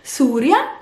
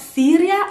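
First: Syria as SOO-ria, slow with long "oo"; Arabic pronunciation. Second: Syria with "ee" as SEE-ria; wrong English-style pronunciation. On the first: Teacher correcting Syria, slowly saying "soo-ria". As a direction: stretch the first vowel of Syria to "soo". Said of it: "it's not Syria, it's Syria". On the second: Teacher showing what not to say, Syria as "see-ria". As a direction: say Syria the English way, first vowel "ee". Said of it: "it's not Syria". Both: Shown as a demonstration.

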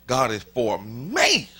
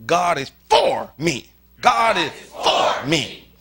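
First: ME stretched out with a swoop in pitch; slow, loud phrase landing hard on "me"; stress on me. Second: FOR punched loud, slow drawn-out phrase; loud, deliberate demo with FOR standing out; stress on for. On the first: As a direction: draw out the final word me. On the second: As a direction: slowly hit the word "for" hard. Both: Shown as a demonstration. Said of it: "say it like this".

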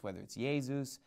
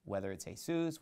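First: "Jesus" said YAY-zoos; "Jesus" starting with Y, ending "zoos"; Y-sound Jesus. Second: "Jesus" said hay-SOOS; "Jesus" with breathed H and final "soos"; Spanish-style Jesus. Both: Shown as a demonstration. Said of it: "We pronounce it in English as Jesus".

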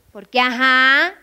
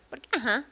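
First: "ajá" drawn out loud and rising; slow, emphatic, rising "ajá"; loaded intonation. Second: Soft, short "ajá", tossed away; quiet, offhand "ajá"; indifferent intonation. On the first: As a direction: stretch the end of "ajá" upward, full of meaning. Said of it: "es otra cosa". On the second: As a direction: drop "ajá" quietly as if you didn't care. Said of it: "Ese es que no te importaba ir". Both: Shown as a demonstration.

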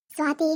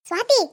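First: Said in the usual way. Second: A sharp rising call across the room; calling out loud. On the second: Acted. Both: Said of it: "ಜೋರಾಗ್ ಕಿರ್ಚ್ಬೇಡ".

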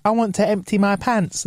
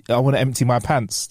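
First: Put-on higher, childlike announcement; little kid voice. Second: Said in the usual way. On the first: Kid needing the toilet, imitated childlike voice. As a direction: imitate a cute kid, pitched up. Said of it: "when a kid goes like". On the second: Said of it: "But if I go".

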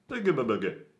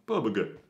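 First: Higher, odd goofy voice. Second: Said in the usual way. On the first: Pretend. Repeating the silly word in a goofy voice. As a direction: twist it into a cartoonish gurgle.

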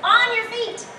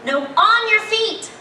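First: Said in the usual way. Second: "your" stressed, slow, falling at the end; slow it down and punch "your" to correct the dog; firm slowed command. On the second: Shown as a demonstration.

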